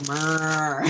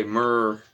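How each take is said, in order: First: Drawn-out Southern cow murr, louder; Southern cow moo. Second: Southern cow moo. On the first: Joking that Southern cows have accents, Southern moo. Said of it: "in the South, they go". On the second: Repeating the Southern cow joke back, Southern moo. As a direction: give "Murr." a lazy Southern cow drawl. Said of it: "The cows have accents, too, down south. They say". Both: Retold or imitated.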